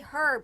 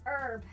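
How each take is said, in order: First: It has a British accent, with a pronounced h. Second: It has an American accent, with a silent h.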